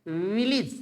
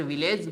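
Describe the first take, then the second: First: विलेज said as vil-ij, short i; the right English take of विलेज; correct pronunciation. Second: विलेज said the common wrong way, like vil-lage with a long e; the wrong take of विलेज; wrong pronunciation. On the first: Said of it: "English के अंदर इसको बोला जाता है विलेज". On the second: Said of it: "इसको बोल ही गलत रहे हैं". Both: Shown as a demonstration.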